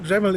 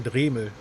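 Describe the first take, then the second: First: The first vowel is short. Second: The first vowel is long and stretched. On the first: "it's pronounced a bit different in, in English" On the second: "in German I say Dremel, so the first E is a bit, bit more stretched"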